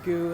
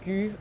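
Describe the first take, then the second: First: The vowel is the English long oo sound. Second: The vowel is the French front rounded sound. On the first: The speaker calls it wrong. "not goo in English" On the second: The speaker calls it right. "like tu"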